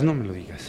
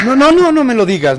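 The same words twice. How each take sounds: First: Very soft, low repeat; resigned plea. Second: High burst of repeated refusals; alarmed plea. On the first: Boss stops Pascual naming the magazine, resigned murmur. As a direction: sink away into a murmur. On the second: Boss stops Pascual naming the magazine, alarmed. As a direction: cut him off in rising alarm. Dreads hearing which magazine it was. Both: Acted.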